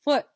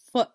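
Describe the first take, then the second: First: FOOT with a gap before a crisp T; final sound isolated. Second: Said in the usual way. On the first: Shown as a demonstration. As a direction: release the T of FOOT on its own. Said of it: "Final sound is". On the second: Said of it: "Now let's try it".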